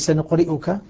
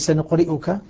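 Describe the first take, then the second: First: The middle consonant is a glottal stop. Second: The middle consonant is a glottal stop.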